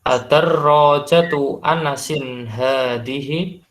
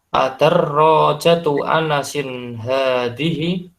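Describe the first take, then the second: No difference in how they are said.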